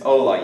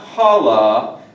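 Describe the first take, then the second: First: The word begins directly with the vowel. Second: The word begins with an audible h sound. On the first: The speaker calls it right. "You never pronounce the H in Spanish" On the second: The speaker calls it wrong. "It's not hola"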